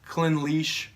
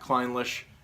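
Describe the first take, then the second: First: The last part sounds like 'leash'. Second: The last part does not sound like 'leash'. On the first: The speaker calls it right. "It's Clynelish" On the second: The speaker calls it wrong. "the last part is leash and not Clynelish"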